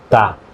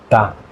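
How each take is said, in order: Both takes have the same delivery.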